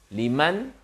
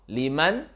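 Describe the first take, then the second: No difference in how they are said.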